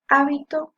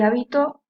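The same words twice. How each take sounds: First: The stress is on the first syllable. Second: The stress is on the last syllable. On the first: It has one meaning. "que sí lleva tilde en la primera sílaba" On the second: It has a different meaning. "también que lleva en la última sílaba"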